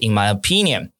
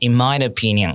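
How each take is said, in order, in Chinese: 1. 'my' 这个词不重读。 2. 'my' 这个词带主重音。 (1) "而不是" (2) "也可以跟他们一样讲"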